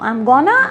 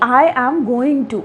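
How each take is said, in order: First: It is reduced and run together as 'gonna'. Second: It is said in full as 'going to'. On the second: "I am गोइंग टू की जगह"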